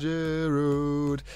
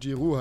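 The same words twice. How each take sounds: First: The name ends with an audible D sound. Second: The name ends without any D sound. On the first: The speaker calls it wrong. "warum ich das D da rangepackt habe" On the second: The speaker calls it right. "dass er eigentlich Giroud heißt"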